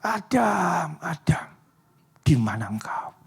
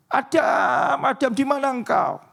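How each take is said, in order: First: Hushed, breathy calling of Adam's name; whispered call. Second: High, urgent calling out for Adam; panicked call. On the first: God grieving, calls for lost Adam in a whisper. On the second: God panics, calling out for missing Adam. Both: Acted. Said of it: "Dia teriak".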